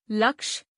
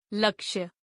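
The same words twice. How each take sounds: First: लक्ष्य without its glide, as "laksh"; no final ya. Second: लक्ष्य ending in a "ya" glide; final ya glide. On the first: Teacher gives word for lakh, लक्ष्य said as लक्ष. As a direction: stop लक्ष्य on the sh sound. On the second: Teacher gives word for aim, लक्ष्य with final ya. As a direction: sound the य at the end of लक्ष्य. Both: Shown as a demonstration. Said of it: "उच्चारण एवं वर्तनी की शुद्धता".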